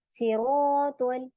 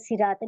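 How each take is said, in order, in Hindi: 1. पहली s भारी है, जीभ पीछे उठती है। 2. पहली s पतली है, सीटी जैसी। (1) "ऐसे। सीरातल नहीं पढ़ना, सीन नहीं बनाना।" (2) "ये गलत है। आपने इसको मोटा ही पढ़ना है।"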